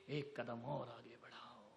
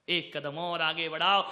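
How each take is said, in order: First: Said much softer, low and intimate; soft urging. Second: Louder, rising exhortation; rousing call. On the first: Preacher urging listeners forward, softly. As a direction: coax the listeners gently. Exhortation repeated with contrast. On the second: Preacher urging listeners forward, rousing call. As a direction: push them forward with force. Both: Acted.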